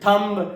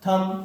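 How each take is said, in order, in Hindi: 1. यह शब्द एक सुनाई देने वाली "b" की आवाज़ पर खत्म होता है। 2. यह शब्द "m" पर खत्म होता है, इसमें "b" की कोई आवाज़ नहीं है। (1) "अभी तक मेरे भाई हम लोग क्या बोलते थे? ... ये सब कुछ भी नहीं होता है" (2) "एम के बाद बी हो तो बी क्या होता है? साइलेंट होता है"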